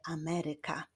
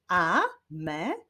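First: Said in the usual way. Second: "Ameryka" split as a, me, ry, ka; syllable by syllable. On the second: Shown as a demonstration. Teacher clapping syllables with pupils, "Ameryka" said syllable by syllable. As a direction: sound out "Ameryka" in four separate beats. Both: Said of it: "Wyklaszczmy sylaby w wyrazie Ameryka".

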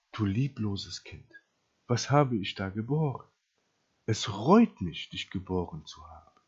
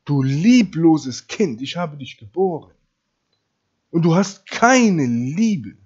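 First: Quietly acted parental disappointment; disappointed mother. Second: Loud, slow mother's reproach; acted scolding of one's own child; reproachful mother. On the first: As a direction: let the regret sink in, dropping low at the end. Wenn eure Mutter euch sagen würde. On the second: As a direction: stretch out the accusation, hitting it hard. Deine Mutter würde dir sagen.

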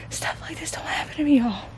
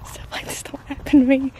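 First: Awed whisper, breathless; giddy disbelief. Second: Giddy disbelief. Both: Real, not acted. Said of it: "if I sound, like, giddy".

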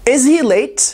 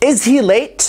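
No difference in how they are said.

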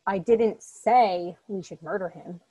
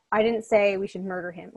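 First: Slow, with didn't leaned on; deliberate slow emphasis on didn't; slow stress on didn't. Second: Emphasis on I to shift the meaning; stress on I. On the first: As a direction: drag it out and weight didn't. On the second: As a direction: lean hard on the word I. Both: Shown as a demonstration. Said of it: "depending on the emphasis".

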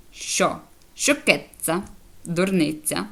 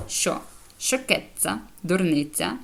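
The two takes are said the same way.

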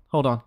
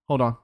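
No difference in how they are said.

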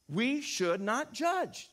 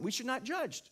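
First: We should not judge, said very slowly and deliberately; emphatic slow point. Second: Said in the usual way. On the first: Shown as a demonstration. Pastor stating his first point to the church, slow and emphatic. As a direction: drive home we should not judge word by word. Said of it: "major point". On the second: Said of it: "That's the first point".

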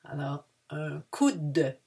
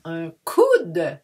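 First: "un coude" slow again, "coude" long; unhurried "coude"; slow repeat. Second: "un coude" said slowly, stretching "coude"; slow, careful "un coude"; slow model. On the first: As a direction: give "un coude" slowly once more. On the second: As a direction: draw out "coude" so it isn't "cou". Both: Shown as a demonstration. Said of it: "not to mistake with le cou".

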